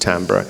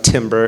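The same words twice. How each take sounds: First: The word is pronounced the French way. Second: The word is pronounced the English way. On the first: The speaker calls it right. "it's timbre. Um, so it's a French word" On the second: The speaker calls it wrong. "it's not timbre"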